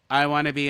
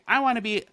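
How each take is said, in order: First: It is said in a flat, monotone pitch. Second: It is said with lively, varied pitch. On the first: The speaker calls it right. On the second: The speaker calls it wrong.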